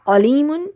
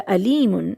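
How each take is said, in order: First: علیمن with a throaty initial ain; careful Arabic ain at the start of علیمن; Arabic ain sound. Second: علیمن begun with a plain glottal a; علیمن mispronounced with alif for ain; alif instead of ain. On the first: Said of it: "علیمن عین سے ہے". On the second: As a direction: say علیمن as alimun, with no throat squeeze. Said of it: "الف سے پڑھ دیں گے". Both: Shown as a demonstration.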